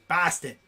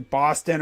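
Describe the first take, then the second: First: Put-on flat-vowelled Boston accent on "Boston"; playful Boston accent. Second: Said in the usual way. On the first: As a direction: say "Boston" like a local, with a fronted first vowel. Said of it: "the Boston accent and the Brooklyn accent".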